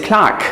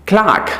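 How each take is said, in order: No difference in how they are said.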